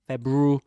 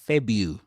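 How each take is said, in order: First: The R sound in the middle is pronounced. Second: The R sound in the middle is dropped. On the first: The speaker calls it wrong. "He doesn't say February" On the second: The speaker calls it right. "Febu without pronouncing the R"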